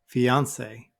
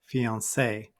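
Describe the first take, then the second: First: The stress is on the second syllable. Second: The stress is on the last syllable. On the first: "I put the stress on the second syllable this time" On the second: "some people put it at the end"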